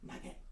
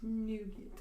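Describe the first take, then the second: First: The first vowel sounds like in 'nut'. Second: The first vowel sounds like in 'noon'.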